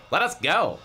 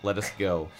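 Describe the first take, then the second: First: Higher, louder insistent plea. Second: Said in the usual way. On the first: A narrator's reading. Sari to captor Ahmed, demanding release, insistent. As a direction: insist on being released, voice raised. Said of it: "Sari insisted". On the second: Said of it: "Oh, sorry".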